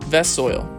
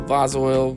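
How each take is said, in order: First: The first vowel sounds like the one in 'vessel'. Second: The first vowel sounds like the one in 'vase'.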